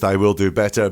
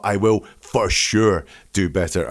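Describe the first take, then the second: First: Said in the usual way. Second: "for sure" set apart and weighted; stress on FOR SURE. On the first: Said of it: "it's not just". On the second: Shown as a demonstration. Analyst showing how he oversells his promise, stress on "for sure". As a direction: lean hard on "for sure" to convince. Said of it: "I'm turning up the severity".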